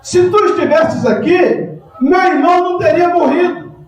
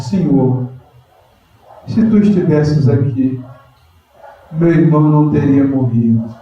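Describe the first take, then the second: First: Martha's reproach. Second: Lower, gentle humble plea; Mary kneeling at Jesus's feet, humble plea. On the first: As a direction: throw it at Jesus as a reproach. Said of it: "olha só a atitude de Marta". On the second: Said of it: "E fala com humildade". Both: Acted.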